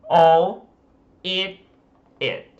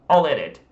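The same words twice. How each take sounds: First: The words are said separately, not linked. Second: The words run together into one linked phrase. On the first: The speaker calls it wrong. "se ele for falar de outra forma" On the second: The speaker calls it right. "fala all eat it"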